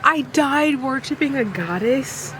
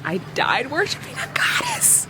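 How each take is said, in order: First: Higher, gushing delight; giddy fangirl repeat. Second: Breathy awed whisper, higher; swooning whisper. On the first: Reader repeats the romance quote to viewers, gushing. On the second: Reader swoons over her favorite book line, whispering. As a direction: whisper it like a secret you can't get over. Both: Real, not acted.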